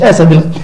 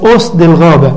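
First: The first word is pronounced asad. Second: The first word is pronounced usd. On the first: It is a misreading of the book's title. The speaker calls it wrong. "مش اسد الغابة" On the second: It is the book's actual title. The speaker calls it right. "اسمه اسد الغابة"

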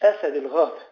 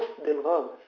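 First: The first word is the singular form 'asad'. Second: The first word is the plural form 'usd'. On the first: The title means lion of the forest. The speaker calls it wrong. "مش أسد الغابة" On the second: The title means lions of the forest. The speaker calls it right. "اسمه أسد الغابة ... أسد جمع أسد"

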